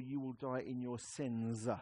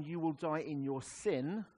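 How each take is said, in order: First: Slow, with the weight on the z of "sins."; stress on plural sins. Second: Slow, with the weight on "sin."; stress on singular sin. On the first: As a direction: lean on "sins." and let the final s buzz clearly. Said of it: "sins, plural". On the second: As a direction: lean on "sin." and keep it one clean syllable with no s. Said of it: "sin, singular". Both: Shown as a demonstration.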